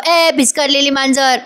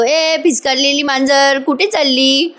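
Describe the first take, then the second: First: Retelling the scream in a mild mock yell, a bit higher. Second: Slow teasing line with laughter breaking in; laughing tease. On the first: Parth calling out to Kavya, who is ignoring him, in a mild mock yell. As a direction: call out ए भिस्कारलेली मांजर as a half-hearted retold shout. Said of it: "जोरात किंचाळत म्हणतो". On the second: Retold or imitated. Parth mocking Kavya as she leaves the room, laughing. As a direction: laugh through the taunt ए भिस्कारलेली मांजर. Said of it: "हसायला लागतो आणि म्हणतो".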